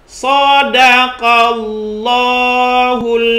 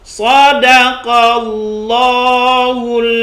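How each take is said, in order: No difference in how they are said.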